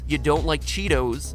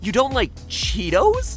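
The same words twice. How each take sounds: First: The pitch stays flat and even throughout. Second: The pitch moves upward at the end.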